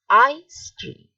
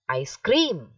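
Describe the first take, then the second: First: The stress is on the first part. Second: The stress is on the second part. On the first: The speaker calls it right. "the stress is on the first part" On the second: The speaker calls it wrong. "You do not say ice cream. That is wrong"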